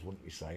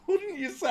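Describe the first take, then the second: First: Said in the usual way. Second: Breaking into a high laugh mid-question. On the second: Real, not acted. To viewers, teasing about the skull's eye sockets, laughing. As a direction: giggle the question out, much higher.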